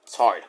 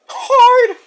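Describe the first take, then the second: First: Said in the usual way. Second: "Hard!" very high and loud; comic falsetto outburst; high mock squeal. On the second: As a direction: yelp "Hard!" in a silly high voice. Mock echo of own word.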